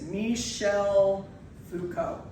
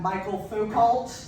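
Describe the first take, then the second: First: The first name sounds like 'mee-shell'. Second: The first name sounds like 'my-kul'. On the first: The speaker calls it right. "That is how you pronounce it" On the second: The speaker calls it wrong. "Not Michael Foucault, which is what I get a lot"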